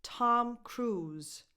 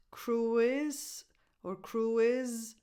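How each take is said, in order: First: "Tom Cruise" with Cruise as one syllable; "Tom Cruise", one long oo then a Z; correct pronunciation. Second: "cruise" split into two slow syllables, CRU-iz; drawn-out wrong "cruise or cruise", extra vowel in each; mispronounced examples. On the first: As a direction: say "Cruise" as CROOZ, ending in Z. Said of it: "A Z sound, not a s". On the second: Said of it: "Not cruise or cruise". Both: Shown as a demonstration.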